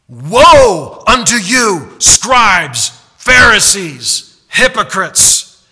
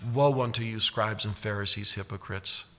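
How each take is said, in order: First: It is said loudly and forcefully. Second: It is said softly and gently.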